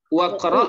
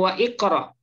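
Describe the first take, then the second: First: The 'wa' runs straight into 'qra' without a vowel. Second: An 'i' vowel is sounded between 'wa' and 'qra'. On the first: The speaker calls it right. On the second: The speaker calls it wrong.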